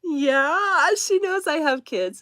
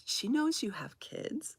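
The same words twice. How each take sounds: First: High, emphatic retold reply to a child; amused obvious answer. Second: Put-on softer, high questioning child's voice; surprised seven-year-old. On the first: Mother answering her child's surprised question. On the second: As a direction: imitate a kid asking in disbelief. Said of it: "This is what my seven-year-old said".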